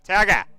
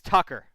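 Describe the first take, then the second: First: The name is said in an imitated New England accent. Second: The name is said in his own neutral accent.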